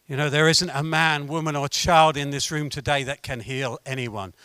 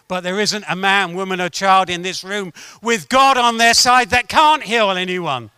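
First: Low, subdued setup; restrained preacher, pitched down; low-key statement. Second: Lifted emphasis on "with God on their side"; firm preacher's counterstatement, stronger on "with God on their side"; emphatic reversal. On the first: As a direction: state the human limit quietly, holding back. Negative statement set against its reversal. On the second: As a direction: raise the voice through "with God on their side that can't heal". Reversal of the statement before. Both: Real, not acted.

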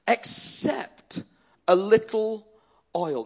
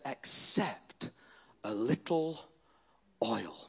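First: "Except", pause, "a little" lifted, pause, "oil"; emphatic repeat. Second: Low, soft, with pauses between phrases; hushed quote. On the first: Preacher repeating the widow's answer, "Except a little oil" raised and spaced out. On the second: Preacher quoting the widow to the church, hushed and halting. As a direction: let it sink down to a very quiet last word. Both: Retold or imitated.

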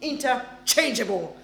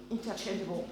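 First: Interchangeable with the stress on -CHANGE-, said with a laugh; Interchangeable, stress placed right on CHANGE; corrected pronunciation. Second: Interchangeable with the accent on the wrong syllable; Interchangeable, stressed the wrong way, a quiet trial; accented mispronunciation. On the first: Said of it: "That's the one. The accentuation is the right place now". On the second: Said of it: "that's my accent sometimes. Doesn't work". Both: Shown as a demonstration.

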